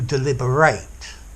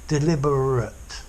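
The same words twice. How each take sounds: First: The final syllable is stressed, sounding like 'eight'. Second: The final syllable is unstressed and weak. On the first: "I'm stressing the end of the word" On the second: "notice the ending of the adjective deliberate, it's unstressed"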